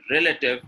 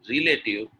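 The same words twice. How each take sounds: First: RELATIVE with short "rel" and reduced middle; correct pronunciation. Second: RELATIVE starting "ree-lay", like relate; wrong pronunciation. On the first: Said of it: "is correct". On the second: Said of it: "is incorrect". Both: Shown as a demonstration.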